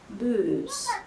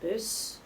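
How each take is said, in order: First: The vowel is drawn out long. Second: The vowel is short and clipped.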